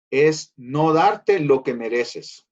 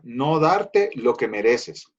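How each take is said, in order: First: Slowly spelled out, each word weighed; teaching the meaning of mercy, slow and emphatic. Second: Slow, deliberate restatement; restating the definition, slow and weighty; slow emphatic. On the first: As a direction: lay the definition down slowly. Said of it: "definition emphasized". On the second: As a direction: repeat it slowly so it sinks in. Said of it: "definition repeated". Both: Shown as a demonstration.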